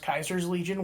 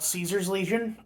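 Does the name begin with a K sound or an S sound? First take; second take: K sound; S sound. First: The name begins with a hard K sound. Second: The name begins with a soft S sound. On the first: This follows the original Latin pronunciation. "they call themselves Kaiser's Legion, which is technically accurate" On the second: This is the anglicized form of the name. "I prefer to say Caesar. That's just how it looks anglicized"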